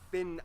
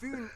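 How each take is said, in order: First: The name is said with an English pronunciation. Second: The name is said with a Danish pronunciation. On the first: The speaker calls it wrong. "not Finn Island" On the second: The speaker calls it right. "pronounce the location names in their proper Danish context"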